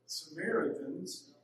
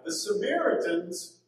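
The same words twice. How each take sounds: First: "Samaritans" drawn out slowly through the nose, rising at the end; nasal, slow "Samaritans" with a lift at the end. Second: Said in the usual way. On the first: Shown as a demonstration. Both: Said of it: "you have to say it with your nose".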